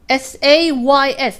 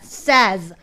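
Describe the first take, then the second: First: It sounds like 'say' with an s added. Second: It has a short 'e' vowel, like 'sez'. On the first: The speaker calls it wrong. "이때 발음이 says가 아니에요" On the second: The speaker calls it right. "says입니다"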